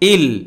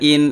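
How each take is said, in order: First: The n merges into the l sound. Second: The syllable ends with a clear n sound. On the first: The speaker calls it right. "সরাসরি হামজা লামজের ইল" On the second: The speaker calls it wrong. "এখানে হামজা নুনজের ইন ... এরকম হবে না"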